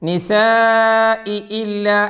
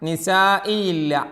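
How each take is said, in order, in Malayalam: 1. രണ്ട് 'i' സ്വരങ്ങളും വ്യക്തമായി, ഒന്നിനു പിറകെ ഒന്നായി ഉച്ചരിക്കുന്നു. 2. രണ്ട് 'i' സ്വരങ്ങളും കൂടിച്ചേർന്ന് ഒന്നായി ഉച്ചരിക്കുന്നു. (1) "ഇ ഇ ഇ ഇ" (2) "അങ്ങനെയല്ല"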